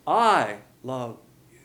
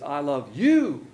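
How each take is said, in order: First: Loud, long "I", then "love you" fading; stress on I. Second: Slow line with a loud, stretched "you"; stress on YOU. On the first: Preacher voicing God's love for the unbeliever, stress on I. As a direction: hit "I" hard and drop away on "you". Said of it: "But for the unbeliever". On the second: Preacher voicing God's love for the believer, stress on YOU. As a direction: land long and loud on "you". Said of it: "God now has a personal love". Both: Shown as a demonstration.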